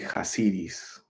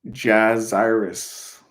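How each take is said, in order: First: The name begins with a breathy H sound. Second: The name begins with an English J sound. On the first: The speaker calls it right. "There has to be like a Spanish accent. I think it would be" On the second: The speaker calls it wrong. "you can't say J- Jazzirus in Spanish"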